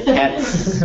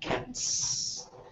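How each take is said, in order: First: The final sound is a voiced z. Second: The final sound is an unvoiced s. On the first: The speaker calls it wrong. "it's awkward to go cats" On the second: The speaker calls it right. "It's an unvoiced sound"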